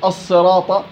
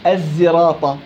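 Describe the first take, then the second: First: The first consonant is a pure emphatic s. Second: The first consonant is a pure z sound. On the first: "صاد خالصة" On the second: "زاي خالصة"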